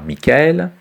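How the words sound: The name is said with a French pronunciation. "En français, on dira Michael"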